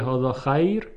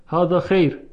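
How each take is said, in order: First: خیر said as "khayr"; standard vowel. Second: خیر said as "kheyr"; dialect vowel. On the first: Teacher shows the form dialect speakers avoid, خیر as "khayr". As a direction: open خیر out to an ay sound. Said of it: "به جای اینکه بگه". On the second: Teacher shows Arabic dialect speech, خیر as "kheyr". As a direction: give خیر an ey sound, not ay. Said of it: "مثل خیر و خیر". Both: Shown as a demonstration.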